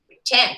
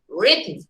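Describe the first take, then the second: First: The stress is on the second syllable. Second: The stress is on the first syllable. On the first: The speaker calls it wrong. "if you shift the syllable, I mean stress to the second syllable" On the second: The speaker calls it right. "the stresses on the first syllable"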